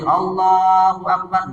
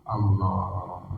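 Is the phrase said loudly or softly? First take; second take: loud; soft. First: It is said loudly and clearly. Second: It is said very softly, almost under the breath. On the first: It is meant to be heard by the whole congregation. "si imam harus keras baca takbirnya" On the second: It is meant to be heard only by oneself. "sekedar terdengar telinganya sendiri"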